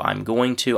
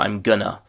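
First: I am is contracted, going to stays full. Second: Going to blends into a reduced gonna. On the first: "with a contraction" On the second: "we're getting into chewing gum territory here"

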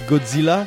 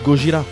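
First: The name is said with a 'dz' sound. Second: The name is said with a 'j' sound. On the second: "ça se prononce Gojira en japonais"

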